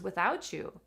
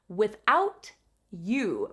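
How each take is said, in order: First: The T and Y blend into a ch sound. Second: The T and Y sounds are kept separate. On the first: "It actually joins together to become ch" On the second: "We don't differentiate the T and the Y sound"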